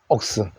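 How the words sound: The vowel is a rounded 'o' sound.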